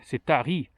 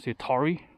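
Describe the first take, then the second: First: It is said without an American accent. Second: It is said with an American accent.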